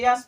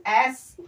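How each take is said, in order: First: "यस" with a y-glide before the S; wrong student pronunciation. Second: "एस" as ess, vowel first; correct pronunciation. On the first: Teacher showing how students misread the letter S, wrong pronunciation. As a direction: say "यस" as yes, y first. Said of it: "pronunciation बच्चे करते हैं". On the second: Teacher showing how S should be read, correct pronunciation. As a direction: say "एस" with no y-glide. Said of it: "एस और x होता है". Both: Shown as a demonstration.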